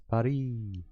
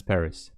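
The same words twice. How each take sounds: First: "Paris" as pah-REE, soft r and a silent s; the French way, "Paris" with no s at the end; "Paris" prononcé à la française. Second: Said in the usual way. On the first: Shown as a demonstration. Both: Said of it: "How do you have to pronounce it correctly?".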